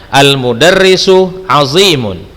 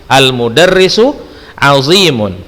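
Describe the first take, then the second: The two takes are said the same way.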